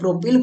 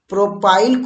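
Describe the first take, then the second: First: The second syllable has a short 'i' vowel. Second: The second syllable has a long 'ai' vowel. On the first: This is how it is said in Hindi. "Hindi में देखिए प्रोपिल बोलते हैं" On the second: This is how it is said in English. "English में तो बोल लेते हैं आइसोप्रोपाइल"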